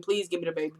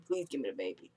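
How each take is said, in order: First: Mild pleading. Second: Faded pleading. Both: Retold or imitated. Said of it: "pleading, pleading".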